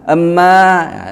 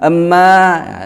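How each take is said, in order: First: A short vowel sound comes before the m. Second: A short vowel sound comes before the m.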